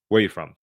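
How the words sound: The pitch stays level or falls at the end.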